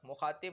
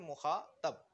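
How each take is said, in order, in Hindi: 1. आखिरी अक्षर 'i' स्वर के साथ बोला जाता है। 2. आखिरी अक्षर 'a' स्वर के साथ बोला जाता है। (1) "मुखातिब नहीं" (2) "बल्कि मुखातब"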